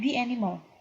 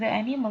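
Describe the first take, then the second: First: 'The' is said with a long 'ee' vowel. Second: 'The' is said with a short 'uh' vowel. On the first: The speaker calls it right. "tapi dia menjadi i" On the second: The speaker calls it wrong. "Bukan the animal"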